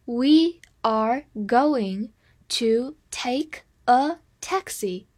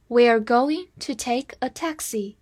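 First: Very slow, each word set apart; slow reading. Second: Said in the usual way. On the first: Shown as a demonstration. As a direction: read word by word with clear pauses. (逐词停顿地慢读) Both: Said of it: "我们慢读一遍".

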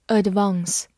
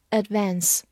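First: Said in the usual way. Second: "advance" with a short American a, as in "cat"; American pronunciation. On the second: Shown as a demonstration. Teacher showing learners the American variant, "advance" with cat vowel. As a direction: say "advance" American-style, ad-VANSS, not ad-VAHNSS. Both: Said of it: "美式发音".

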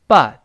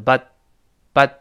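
First: "But" loud and drawn out, final t released; careful, emphatic "But" with its t sounded; slow reading. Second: "but" short, final t unreleased; quick "but" with no t burst; fast reading. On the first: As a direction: say "But" slowly with a separate t. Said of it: "是慢慢读". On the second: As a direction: say "but" quickly, stopping the t on the tongue. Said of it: "读快就是". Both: Shown as a demonstration.

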